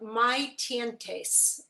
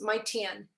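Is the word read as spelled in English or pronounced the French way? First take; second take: as spelled; French. First: It is read as spelled, final letters sounded. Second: It is said the French way, final letters silent. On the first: "It looks like" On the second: "the French pronunciation in the terrible way that I would pronounce it"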